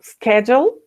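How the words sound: It uses an American or Canadian pronunciation. "if you want to make it American or a Canadian"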